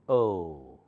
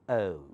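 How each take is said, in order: First: The vowel sound is drawn out long. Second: The vowel sound is short and clipped. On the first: The speaker calls it right. "American starts with O and longer" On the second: The speaker calls it wrong. "not O"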